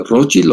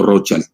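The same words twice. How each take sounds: First: Rothschild as the first option, ending in a short i; German pronunciation. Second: Put-on Rothschild as the second option, ending like English "child"; English pronunciation. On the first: Retold or imitated. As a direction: say Rothschild as "ROT-shild". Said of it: "¿Y cómo se pronuncia?". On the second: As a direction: say Rothschild as "ROTH-chaild". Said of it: "en inglés le dicen Rothschild".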